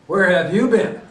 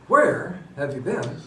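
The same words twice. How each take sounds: First: It sounds like a harsh, accusing interrogation. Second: It sounds exasperated and impatient.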